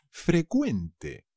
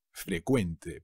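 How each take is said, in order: First: "frecuente" drawn out slowly as fre-KWEN-te; careful model pronunciation. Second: Said in the usual way. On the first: Shown as a demonstration. Teacher warning learners about the spelling, careful model of "frecuente". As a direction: stretch "frecuente" syllable by syllable with a k sound. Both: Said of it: "pero cuidado, se dice".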